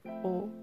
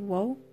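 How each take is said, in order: First: The particle begins with a plain vowel. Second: The particle begins with a w sound. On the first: The speaker calls it right. "It's like o" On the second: The speaker calls it wrong. "you don't say wo"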